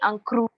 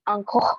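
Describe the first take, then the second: First: The name is said with a Vietnamese accent. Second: The name is said with a French accent. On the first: Vietnamese speakers say it this way. "the Vietnamese people, they call me" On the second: French speakers say it this way. "the French people call me"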